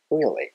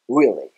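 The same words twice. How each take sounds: First: British "really" with relaxed, unrounded R; British English accent. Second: Loud American "really" with W-like R; American English accent. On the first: Teacher alternates accents for learners, relaxed British "really". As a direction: spread the lips for a loose British "really". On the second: Teacher alternates accents for learners, loud American "really". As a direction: round the lips for an American "really", punched louder. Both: Shown as a demonstration. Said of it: "交互にこの単語の発音をやっています".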